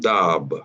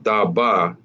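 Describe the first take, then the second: First: The final vowel is dropped into one syllable. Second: Both syllables are said with their vowels. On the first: The letters are joined by a connector. The speaker calls it right. "this become dab" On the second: The letters are not joined by a connector. The speaker calls it wrong. "Instead of this being da ba"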